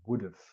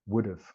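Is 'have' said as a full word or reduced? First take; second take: reduced; reduced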